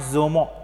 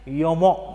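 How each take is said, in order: First: The name begins with a 'z' sound. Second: The name begins with a 'j' sound. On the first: The speaker calls it wrong. "not Zomo" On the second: The speaker calls it right. "Here the pronunciation is Jomo"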